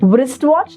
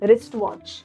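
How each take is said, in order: First: The starting W sound is pronounced. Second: The starting W sound is silent. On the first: The speaker calls it wrong. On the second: The speaker calls it right.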